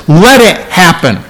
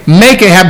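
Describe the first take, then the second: First: "Let" stressed as the right word. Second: "Make" stressed as the rejected word. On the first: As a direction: lean on "Let", easing into the rest. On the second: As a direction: hit "Make" to contrast it. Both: Shown as a demonstration. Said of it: "He doesn't say".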